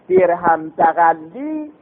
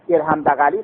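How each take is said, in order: First: The l sound is long and doubled. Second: The l sound is short and single. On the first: The speaker calls it right. "این درست" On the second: The speaker calls it wrong. "بغلی که مشدد نباشه، بغلی مشدد نباشه، او غلط است"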